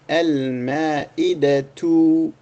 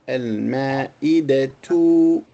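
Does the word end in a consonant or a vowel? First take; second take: vowel; vowel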